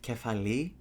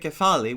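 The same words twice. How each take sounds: First: It is said in the ancient Greek way. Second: It is said in the modern Greek way. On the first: "which is the ancient version" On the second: "which is the modern version we still use up to today"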